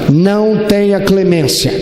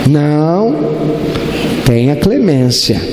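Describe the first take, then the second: First: It is said as a flat order, no pause. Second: There is a pause after the first word. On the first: Show no mercy. "É um imperativo, uma ordem" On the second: Please show mercy. "Ou pode mudar a sentença"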